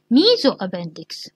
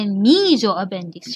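First: ميزو أبندكس with a firm falling close; confirming the answer. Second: ميزو أبندكس said slowly with a rising, inviting tune; prompting the answer. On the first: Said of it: "شو اسميه؟". (ميزو أبندكس بنبرة هابطة حاسمة كجواب نهائي) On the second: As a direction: leave ميزو أبندكس hanging so the class fills it in. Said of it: "إذا شو أقول؟". (ميزو أبندكس بنبرة صاعدة بطيئة كأنها سؤال للطلاب) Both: Shown as a demonstration.

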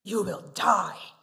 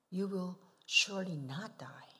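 First: Loud, slow, stern pronouncement; booming voice of a stern God. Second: Sly tempting whisper; soft hissing temptation whisper; serpent whisper. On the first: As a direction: hand down the death sentence slowly. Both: Shown as a demonstration. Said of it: "Which sounds better to you?".

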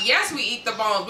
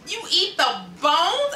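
First: Said in the usual way. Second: High, slow incredulous question; can't believe it, stretch it up high; shocked disbelief. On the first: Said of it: "people that started responding". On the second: Retold or imitated. Hearing that people eat chicken bones, high slow disbelief. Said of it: "And I was like".

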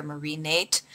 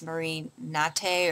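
First: "Nate" as one syllable, rhyming with late; English-style pronunciation. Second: "Nate" said in two syllables, nah-TAY; French-style pronunciation. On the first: Vlogger offers the other reading, "Nate" rhyming with late. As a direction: say "Nate" the English way, silent final e. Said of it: "or Marie Nate". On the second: Vlogger unsure of a brand name, "Nate" said nah-TAY. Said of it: "I don't know if it's". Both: Shown as a demonstration.

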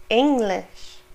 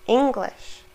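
The two takes are said the same way.

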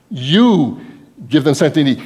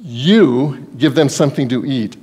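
First: You hit hard, then the rest flowing; stress on you. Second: Said in the usual way. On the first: Shown as a demonstration. Preacher showing Jesus' emphatic You to the disciples. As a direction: lean into You. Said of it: "is emphatic in the Greek there". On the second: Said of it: "The word you is emphatic".

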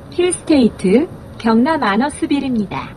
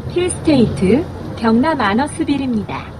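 The two takes are said the same way.

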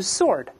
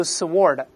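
First: "sword" as "sord", silent W, R sounded; American pronunciation. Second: "sword" as suh-WORD, with an audible W; mistaken W sounded. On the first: Teacher showing how Americans read "sword" as "sord", American pronunciation. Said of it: "美国人都是sword". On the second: Teacher showing the suh-WORD error in "sword", mistaken W sounded. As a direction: say "sword" wrongly, pronouncing the W. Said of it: "不要读sword". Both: Shown as a demonstration.

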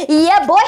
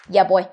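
First: Hyped cheer. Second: Said in the usual way. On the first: Real, not acted. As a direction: hype yourself up.

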